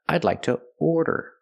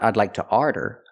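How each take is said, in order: First: The first vowel of 'order' sounds like the vowel in 'more'. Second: The first vowel of 'order' sounds like the vowel in 'car'. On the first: The speaker calls it right. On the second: The speaker calls it wrong. "Not I'd like to ardor"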